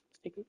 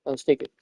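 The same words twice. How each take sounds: First: Much higher, much softer squeak; tiny squeaky voice. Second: Said in the usual way. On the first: Pretend. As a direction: squeak it like a little kid. About to ride the course.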